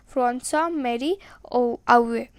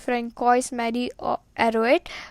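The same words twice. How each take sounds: First: The name is said with French sounds. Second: Every letter is sounded out as written. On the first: The speaker calls it right. "the pronunciation will also go in the same language" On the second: The speaker calls it wrong. "if you read this pronunciation by going word to word"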